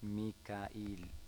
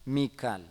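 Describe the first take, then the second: First: It has three syllables with a glottal catch. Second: It has two syllables with no glottal catch. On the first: This is the form used elsewhere. "ഹംസ ഇട്ടാൽ മീകായിൽ" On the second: This is the form used in the Hijaz. "ഇതാണ് ഹിജാസുകാർ പറയുക"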